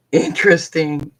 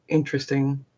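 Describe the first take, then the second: First: Amused, chuckling over the word interesting; laughing. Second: Said in the usual way. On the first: Real, not acted. Laughing at her own word interesting while telling viewers about therapy. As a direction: say interesting through a small laugh, a bit louder.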